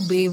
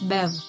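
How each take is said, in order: First: The vowel sounds like the i in bit. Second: The vowel sounds like the e in bet. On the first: The speaker calls it wrong. "It's not Biv" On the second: The speaker calls it right. "it's Bev"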